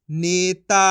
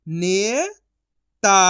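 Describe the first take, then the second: First: Said in the usual way. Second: ने rising long, pause, ता; syllable by syllable. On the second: Shown as a demonstration. Teacher sounding out for learners, syllable by syllable. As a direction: split नेता into two drawn-out sounds. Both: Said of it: "एक एक अक्षर का उच्चारण".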